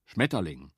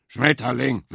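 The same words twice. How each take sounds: First: Schmetterling said lower, steady and matter-of-fact; calm beaver. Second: Schmetterling moaned louder and higher by the boar; despairing boar groans Schmetterling; groaning boar. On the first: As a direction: repeat Schmetterling calmly, knowingly. Beaver repeats the word. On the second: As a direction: let Schmetterling sink in a miserable groan. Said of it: "stöhnte Wildschwein". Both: A narrator's reading.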